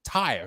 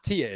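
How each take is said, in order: First: The name begins with a 'tie' sound. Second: The name begins with a 'tee' sound. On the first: The speaker calls it right. "but you pronounce it Taya" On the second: The speaker calls it wrong. "Taya is not Tia"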